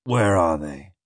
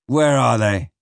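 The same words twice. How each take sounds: First: Low, menacing growled demand. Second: Firm demand in a normal pitch; insistent demand. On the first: Captain asking after his stolen papers, low growl. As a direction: growl the question, pitched down. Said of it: "he growled". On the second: Captain pressing Flashman for the papers, insistent demand. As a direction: demand an answer, pressing harder. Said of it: "he demanded". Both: A narrator's reading.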